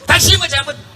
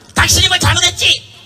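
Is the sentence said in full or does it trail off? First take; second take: trails off; in full. First: It trails off and is cut short. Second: It is said fully and firmly to the end.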